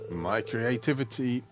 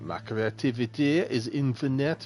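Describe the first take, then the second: First: It is said in the speaker's plain accent. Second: It is said in a French accent.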